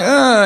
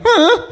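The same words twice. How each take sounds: First: Higher whimper; a little crying uh; mock sob start. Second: Much higher wailing uh; exaggerated sob. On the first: A crying friend begging, higher whimper. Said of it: "When you're like". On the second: Crying harder at an uncaring friend, high wail. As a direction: cry it way up high. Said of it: "and you're like".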